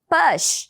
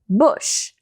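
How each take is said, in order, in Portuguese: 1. A vogal soa como um 'ah' aberto. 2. A vogal soa como um 'oo' curto. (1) "A gente acha que o U sempre vai ter som de A" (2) "a vogal aqui não é A, e sim U"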